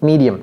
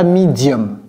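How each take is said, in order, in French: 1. Il se prononce avec des voyelles et un accent anglais. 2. Il se prononce avec des voyelles et un accent françaises. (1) "c'est medium" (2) "Ne dites pas medium"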